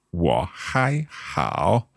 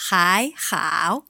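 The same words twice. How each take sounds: First: Wo hai hao drawn out very slowly, syllable by syllable; very slow repeat. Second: Hai hao said with clear Mandarin tones; teacher model. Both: Shown as a demonstration.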